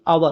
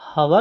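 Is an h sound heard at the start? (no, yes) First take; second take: no; yes. First: The word begins with a vowel, no h. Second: The word begins with an h sound. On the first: The speaker calls it right. "ये आवर होता है, एच इसमें silent होता है" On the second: The speaker calls it wrong. "ये हवर नहीं होता"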